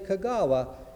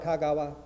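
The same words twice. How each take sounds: First: The name has an American English pronunciation. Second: The name has a Japanese pronunciation. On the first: This is how the speaker's congregation says the name. "you didn't say Kagawa" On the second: This is how the name's owner says it himself. "You said it more like Kagawa"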